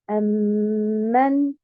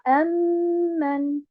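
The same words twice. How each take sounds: First: The stress is on the second syllable. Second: The stress is on the first syllable. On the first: The speaker calls it right. "je vais mettre un abord sur la deuxième haraka" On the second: The speaker calls it wrong. "et non pas"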